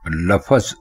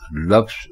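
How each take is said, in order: First: It has two syllables, with a vowel before z. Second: It has one syllable, with no vowel before z. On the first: The speaker calls it wrong. "लफज गलत है" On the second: The speaker calls it right. "लफ्ज दुरुस्त है"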